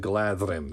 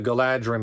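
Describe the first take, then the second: First: The consonant after 'Gala' is a th sound. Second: The consonant after 'Gala' is a plain d. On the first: The speaker calls it right. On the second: The speaker calls it wrong.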